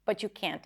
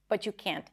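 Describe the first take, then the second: First: The T and Y blend into a ch sound. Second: The same.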